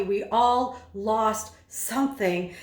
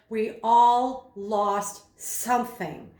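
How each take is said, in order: First: Slow, every word marked out with rhythm; rhythmic emphasis. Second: Slowed right down, each word given weight; slow and rhythmic. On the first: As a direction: beat the rhythm of each word. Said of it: "accentuated or articulated with the rhythm". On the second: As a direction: let each word land slowly. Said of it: "when he slowed down and he literally accentuated". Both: Shown as a demonstration.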